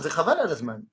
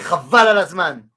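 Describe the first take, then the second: First: It is said in a disappointed, dismissive tone. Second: It is said in an excited, admiring tone. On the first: It is a waste of time. "ça veut dire, c'est une perte de temps" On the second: It is amazing. "si je le dis dans le sens, ouais"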